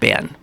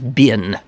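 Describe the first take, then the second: First: The vowel sounds like the one in 'ben'. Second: The vowel sounds like the one in 'bin'. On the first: The speaker calls it wrong. "not been" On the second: The speaker calls it right. "the correct pronunciation is, for American English"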